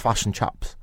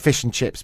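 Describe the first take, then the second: First: It is said with New Zealand-style shifted vowels. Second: It is said with ordinary, non-New Zealand vowels.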